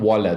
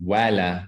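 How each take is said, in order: First: The vowels sound heavy and dark. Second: The vowels sound light and bright. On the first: The speaker calls it wrong. "Don't make it heavy" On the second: The speaker calls it right. "Make it light"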